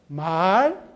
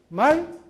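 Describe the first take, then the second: First: The vowel is long, two beats. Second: The vowel is short, one beat. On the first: It means speech that people say. "이렇게 두 걸음이에요" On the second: It means a running horse. "이건 한 걸음이에요"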